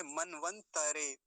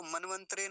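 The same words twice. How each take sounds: First: मनवंतरे slowly, ending in "ta-re"; मनवंतरे drawn out as man-van-ta-re; correct full त. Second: मनवंतरे quickly, ending in "tre"; मनवंतरे with त robbed of its vowel; wrong half त. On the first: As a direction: stretch मनवंतरे, giving त its own vowel. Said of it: "ऐसा हम, हम इसका उच्चारण करेंगे". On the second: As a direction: join त and र at the end of मनवंतरे. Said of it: "नहीं बोलेंगे". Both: Shown as a demonstration.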